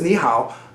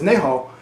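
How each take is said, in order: First: The greeting is pronounced the Mandarin way. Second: The greeting is pronounced the Cantonese way. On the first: "like Mandarin" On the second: "for uh, Cantonese"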